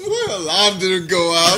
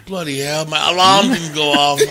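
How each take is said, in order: First: Slow mock English accent. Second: Put-on English accent. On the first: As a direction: echo the line in a put-on English accent. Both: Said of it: "getting the English accent down".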